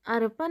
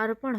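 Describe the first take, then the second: First: अर्पण ending in a plain dental n; wrong dental n. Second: अर्पण ending in curled-tongue ṇ; correct retroflex ṇ. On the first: Teacher showing the common error, अर्पण with dental n. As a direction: say अर्पण as "arpan", n held. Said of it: "अर्पण नहीं होता". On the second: Teacher correcting students, अर्पण with retroflex ṇ. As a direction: flap the final ṇ in अर्पण. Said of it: "अर्पण होता है". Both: Shown as a demonstration.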